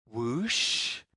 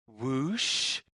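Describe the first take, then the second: No difference in how they are said.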